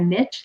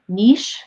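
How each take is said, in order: First: It is said the American way. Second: It is said the Canadian way.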